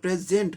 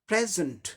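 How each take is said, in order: First: The second syllable has a full 'e' vowel. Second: The second syllable has a reduced schwa vowel. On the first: The speaker calls it wrong. "हम लोग प्रेजेंट बोलते हैं, ए sound है ही नहीं है" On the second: The speaker calls it right. "जॉ sound आ गया, तो क्या हो जाता है?"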